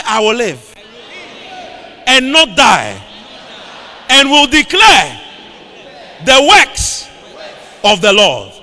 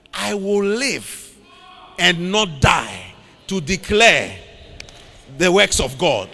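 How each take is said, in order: First: Loud preacher's call-and-repeat; forceful, punched proclamation; rallying declaration. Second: Slow, deliberate scripture quote; weighty, unhurried recitation at normal volume; measured declaration. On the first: Real, not acted. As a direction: belt it out in short phrases for the congregation to echo. Leads congregation to repeat declaration. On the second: Acted. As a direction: declare it slowly, phrase by phrase. Quotes David's declaration, first take.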